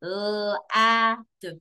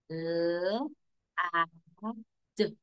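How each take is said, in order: First: Name each letter L, A, D clearly; teacher naming the letters L, A, D; saying letter names. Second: Put-on teacher sounding out L, A, D for kids; sounding out letters. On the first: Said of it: "this is lad". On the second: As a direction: say the sounds of L, A, D, not their names, softer. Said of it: "sound it out work". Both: Shown as a demonstration.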